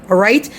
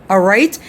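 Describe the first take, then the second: Both takes have the same delivery.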